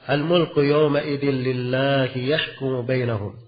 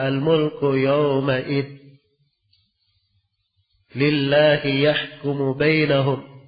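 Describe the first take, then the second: First: The phrase is read through without a stop. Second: The reading stops partway through, then continues.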